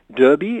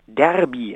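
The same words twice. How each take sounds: First: The first vowel sounds like a rounded 'ö'. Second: The first vowel sounds like an open 'ä'. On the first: "also quasi mit Ö" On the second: "also quasi mit Ä"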